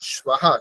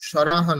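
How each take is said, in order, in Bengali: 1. s-এর পরে v-এর শব্দ আসে। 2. s-এর পরে r-এর শব্দ আসে। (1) "পর স্বাহা" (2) "এখানে র নেই কিন্তু, সরাহা নয়"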